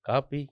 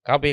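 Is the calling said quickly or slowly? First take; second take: slowly; quickly. First: It is called slowly in a plain, flowing way. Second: It is called quickly in sharp, clipped bursts. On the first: Nobody on the train would notice the call. The speaker calls it wrong. "എന്ന് പറഞ്ഞാൽ ആരും കേൾക്കൂല" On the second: The call cuts through the train's rhythm. The speaker calls it right. "അതിനെ കീറി മുറിച്ചുകൊണ്ട്"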